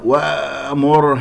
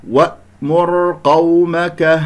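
First: وأمر with the ء slack, sound leaking through; weak hamza. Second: وأمر قومك slowly chanted, a full silent stop on ء; firmly closed hamza. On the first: Teacher showing loose vocal cords, weak unclosed ء in وأمر. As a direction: glide over the hamza in وأمر without closing the throat. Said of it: "وأمر هكذا ضعيفة، لم تقفل الأوتار الصوتية". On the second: Teacher correcting the weak hamza, slow recitation with firm stop in وأمر. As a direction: shut the throat on the ء of وأمر, pitched up. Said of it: "لم تقفل الأوتار الصوتية جيدا". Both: Shown as a demonstration.

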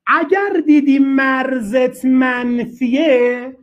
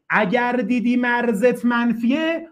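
First: Slow emphasis. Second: Slower repeat. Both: Shown as a demonstration. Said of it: "teacher repeats the rule".

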